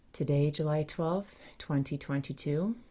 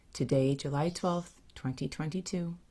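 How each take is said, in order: Both takes have the same delivery.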